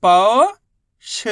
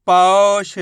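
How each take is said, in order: First: पौष split into पौ, long pause, ष; sound by sound. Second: पौष as one firm, loud word; sounds joined. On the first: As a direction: stretch पौ upward, pause, then ष alone. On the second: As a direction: blend पौ and ष without a pause. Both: Shown as a demonstration. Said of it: "उच्चारण करके आपस में लाके".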